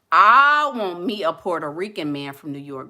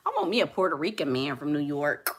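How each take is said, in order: First: Said again louder, leaning on I; emphatic repeat. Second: Said in the usual way. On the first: Real, not acted. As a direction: insist on it the second time, I want me a Puerto Rican man from New York with weight on I. Repeats her wish louder.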